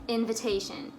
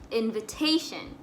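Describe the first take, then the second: Both takes have the same delivery.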